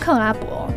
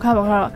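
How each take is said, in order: First: The word is said at a normal pace. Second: The word is said quickly, run together.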